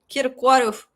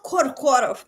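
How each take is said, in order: First: The first syllable has an 'ee' vowel. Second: The first syllable has an 'o' vowel. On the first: The speaker calls it right. "It's [name]" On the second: The speaker calls it wrong. "not not [name]"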